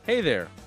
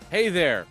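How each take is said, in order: First: The greeting sounds calm and gentle. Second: The greeting sounds loud and aggressive.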